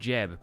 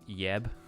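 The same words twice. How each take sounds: First: The name starts with an English j sound. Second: The name starts with a y sound. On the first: "everyone calls him Jeb" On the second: "in Swedish that would just be like Jeb"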